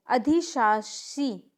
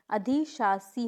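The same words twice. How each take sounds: First: अधिशासी ending in shee, drawn out slowly; wrong pronunciation. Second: अधिशासी ending in a plain see; correct pronunciation. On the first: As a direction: demonstrate the mistake अधिशासी as adhi-shaa-shee. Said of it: "नहीं". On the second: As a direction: model अधिशासी slowly as adhi-shaa-see. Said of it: "होता है". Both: Shown as a demonstration.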